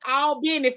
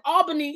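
First: The name is said with a local twang. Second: The name is said plainly, without a twang. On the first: It refers to the city in Georgia. "Albany for Georgia" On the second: It refers to the city in New York. "Albany is for New York"

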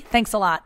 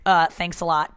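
First: It sounds sincere and genuine. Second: It sounds sarcastic and mocking.

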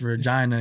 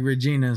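First: The i is said like 'eye'. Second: The i is said like 'ee'. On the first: The speaker calls it right. "So you got to pronounce the I" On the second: The speaker calls it wrong. "They get mad if you say it like Regina"

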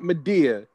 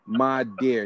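First: The name ends without an audible R sound. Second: The name ends with an audible R sound. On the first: The speaker calls it wrong. "not Madeir" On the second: The speaker calls it right. "So it's Madeir with an R on the end of it"

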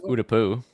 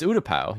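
First: The last syllable sounds like 'oo'. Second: The last syllable sounds like 'ow'. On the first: The speaker calls it wrong. "You don't say it's Utapu" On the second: The speaker calls it right. "It's Utapau"

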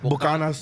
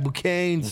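First: The word is said in a strong paisa accent. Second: The word is slurred like a drunk person. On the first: The speaker is acting very paisa. "when I'm like super paisa, like" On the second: The speaker is drunk. "when I'm drunk, I'd be like"

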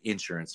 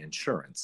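First: Southern style, stress on the first syllable. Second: Non-Southern style, stress on the second syllable.

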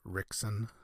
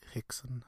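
First: The name begins with an R sound. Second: The name begins with a breathy H sound. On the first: "instead of Rickson" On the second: "almost like a very breathy H"

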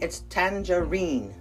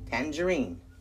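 First: The stress is on the last syllable. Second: The stress is on the first syllable. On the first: This is the British pronunciation. "in the UK, the emphasis is on the final syllable, the reen" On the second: This is the American pronunciation. "In the United States, it's on the tan"

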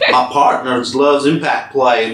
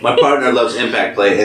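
First: It is read in a put-on Southern American accent. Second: It is read in the speaker's ordinary accent. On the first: "I'm gonna do this in the southern accent" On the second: "Do [name] voice"

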